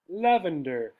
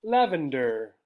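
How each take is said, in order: Both takes have the same delivery.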